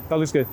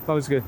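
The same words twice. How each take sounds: The two takes are said the same way.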